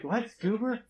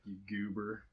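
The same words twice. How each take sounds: First: High, rising bewildered "What? Goober?"; puzzled locals. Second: A lightly done American Southern accent mimicking Ben; Southern drawl impression. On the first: Retold or imitated. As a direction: ask "Goober?" as if the word makes no sense, pitched well up. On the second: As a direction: say "You goober" in a Southern drawl, slow and easygoing. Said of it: "so he talks like this".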